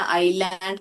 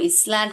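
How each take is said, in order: First: The s sound is silent in the word. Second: The s sound is pronounced in the word. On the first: The speaker calls it right. "आइलैंड करके पढ़ते हैं, वहां पर एस silent है" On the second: The speaker calls it wrong. "इसको इसलैंड करके नहीं पढ़ते बेटा"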